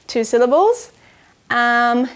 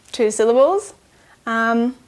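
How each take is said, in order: Both takes have the same delivery.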